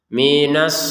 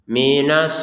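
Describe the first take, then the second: Both takes have the same delivery.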